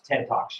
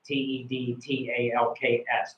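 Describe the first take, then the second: First: Said in the usual way. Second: Spelling out T E D T A L K S letter by letter; each letter of T E D T A L K S said apart; spelled out. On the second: Shown as a demonstration. Spelling the name out for the student.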